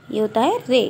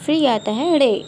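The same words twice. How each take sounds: First: रे with a plain tapped r, /re/; रे as Urdu rē, plain r. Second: रे said with a retroflex flap, like ड़े; रे as Urdu ṛe, retroflex flap; retroflex rre. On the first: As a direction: say रे as a clean dental-tap re, Urdu ray. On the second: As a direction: curl the tongue back for रे, the Urdu ṛe. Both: Shown as a demonstration.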